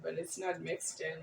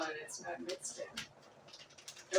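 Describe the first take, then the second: First: Said in the usual way. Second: Much softer, slow, drawn-out mumble; quiet slow grumble to yourself over the pot; slow quiet repeat. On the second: Real, not acted. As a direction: let it trail off slowly under your breath. Repeats stirring remark while cooking.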